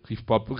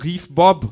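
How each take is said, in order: First: Said in the usual way. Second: Loud, high cry of the words; excited, punched-out shout. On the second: A narrator's reading. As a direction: call it out at full volume. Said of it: "rief sie".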